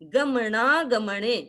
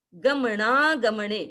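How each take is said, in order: No difference in how they are said.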